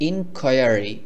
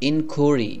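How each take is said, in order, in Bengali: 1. মাঝের অংশটি 'kwire' শব্দের মতো উচ্চারিত হয়। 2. মাঝের অংশটি ছোট 'koo' শব্দের মতো উচ্চারিত হয়। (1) "এই শব্দটিকে আমরা এভাবেও বলতে পারি ইনকোয়ারি" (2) "ইনকোয়ারি এভাবে না বলে ইনকুরি, ইনকুরি এভাবে করে বলবেন"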